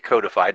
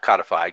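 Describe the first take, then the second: First: The first syllable has the long vowel of 'code'. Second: The first syllable has the short vowel of 'cod'. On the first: The speaker calls it right. "I say codified, ... because it's code" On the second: The speaker calls it wrong. "not codified, ... not a cod"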